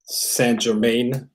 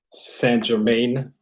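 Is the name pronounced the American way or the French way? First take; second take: American; American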